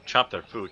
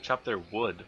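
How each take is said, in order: First: Louder, punching the words out. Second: Said in the usual way. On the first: Real, not acted. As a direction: blurt it out loudly. Misspoken phrase repeated louder.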